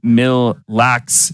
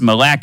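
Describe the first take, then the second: First: The two parts are said separately. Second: The two parts are run together. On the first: The speaker calls it wrong. "Is it Mill Locks?" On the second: The speaker calls it right. "Don't separate it"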